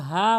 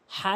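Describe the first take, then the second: First: হা with a light, plain h; common mispronunciation. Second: হা drawn out from deep in the throat; heavy throaty h. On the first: Teacher showing most people's mistake, plain light হা. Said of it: "অধিকাংশ লোক হা বলে". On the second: Teacher spelling out the correct letter, throaty long হা. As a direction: stretch হা with a strong pharyngeal h. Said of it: "এখানে অধিকাংশ লোক হা বলে". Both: Shown as a demonstration.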